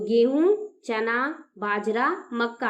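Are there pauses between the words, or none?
pauses. Short pauses separate each word.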